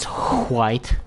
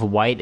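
First: "white" said hwite, with a strong puff of H; exaggerated H. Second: Said in the usual way. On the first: Shown as a demonstration. Player showing how some people say it, exaggerated H in "white". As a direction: blow a long H at the start of "white". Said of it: "emphasize the H in words". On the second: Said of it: "instead of white".

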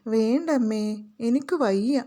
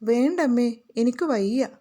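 First: A touch of a crying whine; whining demo. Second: Mild, half-crying whine; whining. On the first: Shown as a demonstration. Teacher shows students what whining sounds like, a light crying whine. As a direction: show how a sick child whimpers. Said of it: "ഇങ്ങനെ കരയുന്നത് പോലെ പറയലാണ്". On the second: Acted. Sick little girl refuses her mother's sweets, mildly whining. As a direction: whimper it like a sick child. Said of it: "baby ചിണുങ്ങി".

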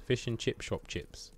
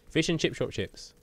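First: Said in the usual way. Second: "Fish and chip shop chips" in one higher, quick run; quick tongue-twister. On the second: Shown as a demonstration. Streamer proving he can say "Fish and chip shop chips", quickly. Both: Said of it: "I can say that quickly".

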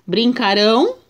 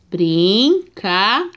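First: Said in the usual way. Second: "Brincarão" said slowly, syllable by syllable; slowed, separated "Brincarão"; slow syllable reading. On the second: Shown as a demonstration. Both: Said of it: "vamos ver a separação".

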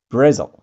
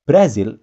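First: Brazil said bruh-ZEL, loud; the English Brazil. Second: Brazil said brah-ZEEL, Indonesian style; the local Brazil. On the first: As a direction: Brazil with a reduced second vowel. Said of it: "Kalau bahasa Inggris". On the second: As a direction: Brazil with a clear long i. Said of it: "Brazil itu dengan bahasa Indonesia". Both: Shown as a demonstration.

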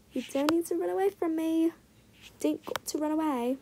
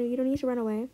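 First: Briefly put-on British accent; lightly faked British lilt; mock British accent. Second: Said in the usual way. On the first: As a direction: slip into a playful British accent. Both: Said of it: "Turn British for a second".

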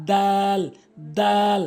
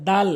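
First: Arabic দাল, held with a fronted vowel; tongue tip at root of front teeth for দাল; correct দাল. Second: দাল with an everyday open "aa"; mispronounced দাল. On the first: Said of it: "সঠিক উচ্চারণ হচ্ছে". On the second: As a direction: say দাল short, as in Bengali. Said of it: "ভুল উচ্চারণ". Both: Shown as a demonstration.

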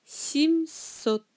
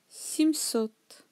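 First: Семьсот said sim-SOT, drawn out in two parts; unstressed E as I. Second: Said in the usual way. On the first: Shown as a demonstration. Teacher showing the vowel rule, Семьсот sounded out as sim-SOT. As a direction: sound out Семьсот with i in the first syllable. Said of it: "Е sans accent devient I".

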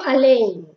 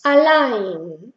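First: Allein said as spelt with E and I; allein, A-LE-IN, letter by letter; wrong spelling pronunciation. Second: Allein slowly, ending in AI; German ei as AI. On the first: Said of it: "no pronuncio allein". (allein pronunciado letra por letra, mal) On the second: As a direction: allein with AI, like Spanish hay. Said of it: "es allein, A I". (allein pronunciado con AI, despacio) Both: Shown as a demonstration.

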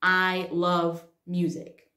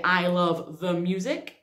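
First: Slow, spaced I LOVE MUSIC; each word of I love music set apart; correct example without article. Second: I love THE music, held up as a mistake; wrong example with THE. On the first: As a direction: model I love music slowly, falling at the end. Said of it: "for example". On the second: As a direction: stress on THE, rising end on music. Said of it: "we don't say". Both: Shown as a demonstration.

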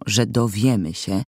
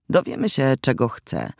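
First: Said in the usual way. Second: A hint of devilish cunning; devilishly sly. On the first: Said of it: "Powiedziałem z szatańską chytrością". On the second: A narrator's reading. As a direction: coax her with cunning. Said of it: "z szatańską chytrością".

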